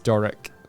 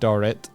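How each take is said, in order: First: The word ends with a k sound. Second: The word ends with a t sound. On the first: The speaker calls it right. "It's Doric" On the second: The speaker calls it wrong. "I'm even saying it wrong. I was saying Dorrit"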